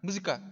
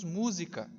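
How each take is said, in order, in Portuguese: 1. A palavra é dita muito rápido. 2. A palavra é dita em velocidade normal. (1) "de forma muito rápida" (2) "Então nós falamos música"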